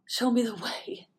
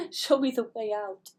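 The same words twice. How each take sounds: First: Whispered plea. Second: Said in the usual way. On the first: Real, not acted. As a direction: whisper "Show me the way" as a prayer. Pleading prayer aloud.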